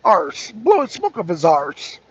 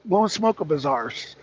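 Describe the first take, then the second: First: Put-on Irish accent on "arse"; lightly attempted Irish lilt. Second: Said in the usual way. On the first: Shown as a demonstration. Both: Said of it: "I have to do my Irish accent".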